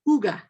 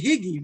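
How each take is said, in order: First: The word is said with its native pronunciation. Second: The word is read as it is spelled. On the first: The speaker calls it right. "But it's pronounced" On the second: The speaker calls it wrong. "if you were to pronounce it the way that we're taught to pronounce, we would say"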